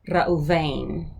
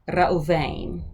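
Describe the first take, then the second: Both takes have the same delivery.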